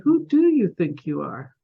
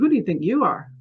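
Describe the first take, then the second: First: It sounds like a genuine, curious open question. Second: It sounds like a challenging, dismissive put-down.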